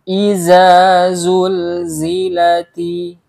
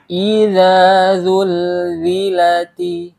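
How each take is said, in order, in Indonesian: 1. Kedua konsonan kunci diucapkan seperti bunyi z. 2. Kedua konsonan kunci diucapkan seperti bunyi dh. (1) "Jangan sampai kita baca huruf za dengan huruf za" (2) "Atau sebaliknya, huruf za kita baca dengan huruf za"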